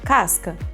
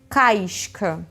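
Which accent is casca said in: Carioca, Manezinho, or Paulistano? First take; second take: Paulistano; Carioca. First: It is said in a São Paulo accent. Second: It is said in a Rio accent, glide before sh. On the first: "esse é o sotaque paulistano"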